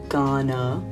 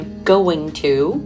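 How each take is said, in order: First: Going to blends into one word, gonna. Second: Going to is said as two full words. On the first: "Will be gonna" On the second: "A few of them would be going to"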